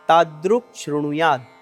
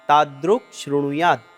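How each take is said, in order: First: The two words are joined into one sound. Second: The two words are joined into one sound.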